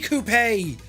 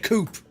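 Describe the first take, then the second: First: It is said the British way. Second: It is said the American way. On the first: "we say coupe" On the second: "Americans say a coupe"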